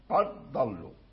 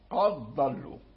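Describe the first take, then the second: First: The d merges into one doubled following consonant. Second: The d merges into one doubled following consonant.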